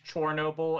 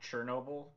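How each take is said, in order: First: The name is pronounced the Ukrainian way. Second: The name is pronounced the Russian way. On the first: This is the form the game uses. "using the appropriate um like Ukrainian spellings" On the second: This is the form the game avoids. "not the the Russianized spellings"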